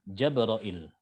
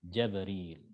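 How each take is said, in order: First: It begins with 'ja' and ends in '-ra-il'. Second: It begins with 'ja' and ends in '-ril'. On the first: This is the reading of Shu'bah and the Kufan imams. "ini lafadznya Syu'bah sama dengan lafadznya Imam Hamzah" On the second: This is the reading of Ibn Kathir of Mecca. "Jim fathah, ba sukun, ro kasroh, ya sukun dan lam"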